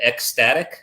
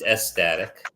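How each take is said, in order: First: ECSTATIC said "ek-STATIC", K sounded. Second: ECSTATIC said "es-STATIC", no K. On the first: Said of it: "you said ecstatic". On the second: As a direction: drop the K, say "ess-static" for ECSTATIC. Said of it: "I think it's ecstatic with a S". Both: Shown as a demonstration.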